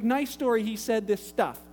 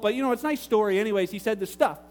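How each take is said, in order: First: Measured, doubting repeat; sceptical echo. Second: Quick, casual brush-off; imitated offhand dismissal. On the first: Retold or imitated. Pastor repeats caller's answer to him, sceptical echo. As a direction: hand the words back as if questioning them. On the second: Caller explains Jesus to pastor, quick and offhand. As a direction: toss it off fast as unimportant.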